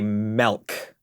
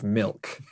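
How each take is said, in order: First: The vowel sounds like the e in 'bed'. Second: The vowel sounds like the i in 'bit'. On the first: The speaker calls it wrong. "would say milk, M E L K" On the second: The speaker calls it right. "instead of milk"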